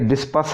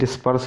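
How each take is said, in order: First: The r sound is left silent. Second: The r sound is clearly pronounced. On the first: The speaker calls it right. "आर इसमें silent है" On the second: The speaker calls it wrong. "ज़्यादातर हम भी डिस्पर्स ही बोलते रहते थे"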